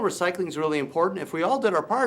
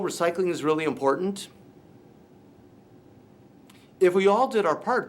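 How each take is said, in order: First: The second sentence follows with no pause. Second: A long pause separates the two sentences. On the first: "with no gap in between" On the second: "it was too long from where one thing ended and the next one began"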